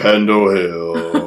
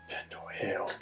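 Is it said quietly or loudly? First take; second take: loudly; quietly. First: It is said louder. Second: It is said at normal, quieter volume.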